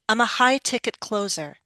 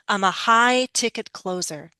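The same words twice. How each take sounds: First: The phrase is said at a very quick pace. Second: The phrase is said at a moderately quick pace. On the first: "Even faster" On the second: "Speed it up a little, but keep that rhythm"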